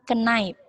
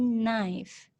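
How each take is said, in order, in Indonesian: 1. Bunyi k di awal diucapkan. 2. Bunyi k di awal tidak diucapkan. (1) "Bukan knife" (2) "K-nya tidak di, disebutkan, maksudnya tidak diucapkan"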